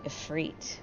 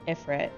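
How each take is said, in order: First: Ifrit with a long ee, if-REET; correct Ifrit. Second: Ifrit with short vowels, if-rit; habitual Ifrit. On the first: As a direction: stretch the last vowel of Ifrit to ee. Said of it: "but it's really Ifrit". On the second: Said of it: "I still call Ifrit". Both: Shown as a demonstration.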